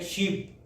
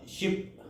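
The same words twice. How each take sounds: First: "शीप" with a long ee; long vowel. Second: "शिप" with a short i; short vowel. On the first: Teacher contrasting sheep with ship, long vowel in "शीप". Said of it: "long vowel है". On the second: Teacher contrasting ship with sheep, short vowel in "शिप". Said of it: "इसमें short vowel है". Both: Shown as a demonstration.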